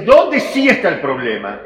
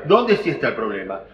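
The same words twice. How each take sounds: First: Louder, pressing ¿dónde sí está el problema? with weight on dónde; emphatic question. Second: ¿Dónde sí está el problema? dropped much lower, stress still on Dónde; low repeat. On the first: Teacher pressing the class: ¿dónde sí está el problema?, loud stress on dónde. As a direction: ask ¿dónde sí está el problema? hard, punching dónde. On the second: Teacher echoing his own question low: ¿Dónde sí está el problema?. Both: Shown as a demonstration.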